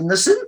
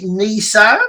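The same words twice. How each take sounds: First: It is said the speaker's own British way. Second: It is said the American way.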